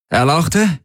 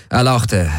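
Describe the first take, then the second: First: ERLAUCHTE as a question, pitched high; questioning prompt. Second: Said in the usual way. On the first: A narrator's reading. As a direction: say "Erlauchte" with rising, querying pitch. Officer asks again after hesitation. („Erlauchte?“ fragend, mit angehobener Stimme)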